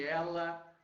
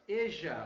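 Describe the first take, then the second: First: The middle consonant is a plain l. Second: The middle consonant sounds like a j. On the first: "Nada de ela" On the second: "olha o J de novo, Uruguai e Argentina, Rio de la Plata"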